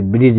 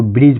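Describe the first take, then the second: First: ब्रिज stretched into two syllables, bri-jay; final E sounded. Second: ब्रिज as one syllable, ending on the j sound; silent final E. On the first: Teacher showing the wrong reading of ब्रिज, final E sounded. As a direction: add a sounded e after the j of ब्रिज. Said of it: "ब्रिज नहीं पढ़ते". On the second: Teacher modelling ब्रिज for students, final E silent. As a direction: say ब्रिज with no vowel after the j. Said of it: "इसको ब्रिज पढ़ते". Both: Shown as a demonstration.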